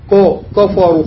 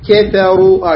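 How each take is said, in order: First: "كفروا" with K thickened and rounded to "كو"; wrongly heavy K. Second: "كثروا" with a thin K and heavy R; light K. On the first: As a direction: spoil "كفروا" with a dark, heavy K. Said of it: "خطأ". ("كفروا" بكاف مفخمة خطأ) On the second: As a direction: say "كثروا" keeping K light, only R thick. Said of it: "هكذا". ("كثروا" بكاف مرققة وراء مفخمة) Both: Shown as a demonstration.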